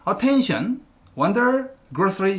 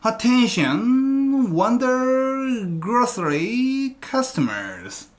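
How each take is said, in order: First: The words are cut apart with breaks. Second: The words flow together in one breath.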